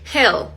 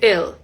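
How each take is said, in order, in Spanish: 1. La palabra empieza con sonido de h. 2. La palabra empieza sin sonido de h. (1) "en decir hell" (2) "la H al inicio muchas veces no, ella no, no la pronuncia"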